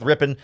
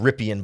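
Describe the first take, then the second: First: The name is said short and clipped, like 'rippin'. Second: The name is said with a fuller, drawn-out vowel ending. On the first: This is the team's official version. "the Rams pronunciation guide says Rippin" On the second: This is the commonly heard version. "I've always heard it as Rypien"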